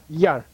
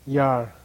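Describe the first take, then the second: First: Short, strong Yar. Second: Yar long, in a low tone. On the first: Teacher models the stronger syllable, short strong Yar. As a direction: give Yar a quick, firm push. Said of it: "Okay, stronger". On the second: Teacher models the low syllable again, low-toned Yar. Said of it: "Low tone, remember?". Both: Shown as a demonstration.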